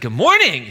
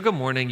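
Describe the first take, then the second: First: The pitch rises at the end. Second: The pitch stays flat at the end. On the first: It invites the listeners to answer back. "I raised my voice there at the end of that" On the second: It does not invite the listeners to answer back. "you just don't say it back"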